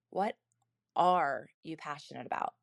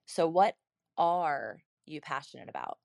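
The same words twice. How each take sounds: First: "are" given weight and a falling close; stress on ARE. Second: "are" leaned on with a falling tune; stress on ARE. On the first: Repeating the husband's question with stress on are. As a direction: land on "are" and ease through the rest. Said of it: "the inflection point is are". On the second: Husband asking his wife with stress on are. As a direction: lift "are" as the key word, not "you". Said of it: "notice the inflection of my voice on this specific word". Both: Shown as a demonstration.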